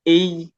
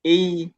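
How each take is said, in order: Both takes have the same delivery.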